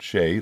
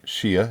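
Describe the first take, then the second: First: The name is said like shea butter. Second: The name is said like Shia. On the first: The speaker calls it right. "but Shea like the butter" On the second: The speaker calls it wrong. "not Shia as I thought"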